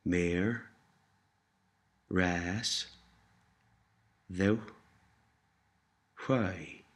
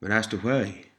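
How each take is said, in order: First: One syllable at a time with long gaps; measured word-by-word demonstration; slow and careful. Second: Joined-up phrase at conversational speed; quicker, connected teaching demonstration; a little faster. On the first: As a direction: sound out Meer, ras, ddiw, hwy separately. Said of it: "Say thank you slowly and carefully". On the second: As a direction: run Mar as ddy why together. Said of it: "Try saying thank you a little faster". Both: Shown as a demonstration.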